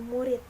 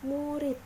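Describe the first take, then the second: First: The word ends with a t sound. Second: The word ends with a d sound. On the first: The speaker calls it wrong. "sedangkan lafal tidak bakunya yaitu murid" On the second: The speaker calls it right. "Lafal bakunya yaitu murid"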